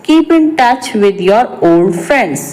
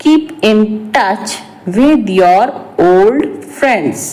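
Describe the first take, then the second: First: Said in the usual way. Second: Slow, broken into short phrases; slow repeat. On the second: Shown as a demonstration. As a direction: say it slowly for learners, pausing before the last words. Repeats translation slowly for learners. (धीरे-धीरे, रुक-रुक कर)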